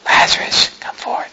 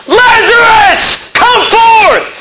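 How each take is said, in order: First: Whispered, feeble call; underplay the shout as a faint whisper; barely-there whisper, no force at all; mock tiny cry. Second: Full-throated, high, drawn-out yell; huge high shout, stretched slowly; loud cry. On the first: Shown as a demonstration. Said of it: "he cried with a loud voice". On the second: Acted. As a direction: call the dead out at the top of your lungs. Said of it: "He cried with a loud voice".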